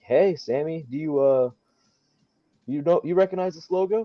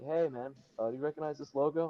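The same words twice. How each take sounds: First: High, loud, easygoing question; smooth casual ask. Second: Rushed, quieter, fast question; nervous. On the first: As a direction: act cool and confident asking. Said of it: "I didn't say it that cool". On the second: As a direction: blurt it out nervously. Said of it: "I'm, like, all nervous". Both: Retold or imitated.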